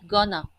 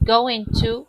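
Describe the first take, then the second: First: The words are reduced and blended together. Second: Both words are said in full, unreduced.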